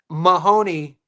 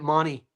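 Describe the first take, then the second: First: The name is said in its ordinary full form. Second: The name is said in a shortened Australian form.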